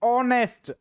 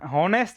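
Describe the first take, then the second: First: The word begins directly with a vowel sound. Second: The word begins with an audible h sound. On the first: The speaker calls it right. "इसको हम बोलते हैं ऑनेस्ट" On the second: The speaker calls it wrong. "हॉनेस्ट नहीं बोलते इसको"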